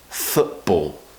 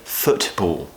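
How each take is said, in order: First: The middle T sound is cut out. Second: The middle T sound is clearly pronounced. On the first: The speaker calls it right. "There's no T" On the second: The speaker calls it wrong. "We don't say football. ... hardly anybody talks like this"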